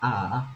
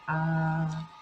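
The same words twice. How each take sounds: First: The pitch dips down and then rises. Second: The pitch stays high and level. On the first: "first of all down and then up" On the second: "that's the first tone"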